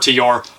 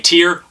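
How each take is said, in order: First: The name is said with a gliding 'yor' ending. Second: The name is said as one short syllable. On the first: This is how a band member says the name. "band member saying it's pronounced Tyor" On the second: This is how an English speaker would read the spelling. "which I think is Tyr"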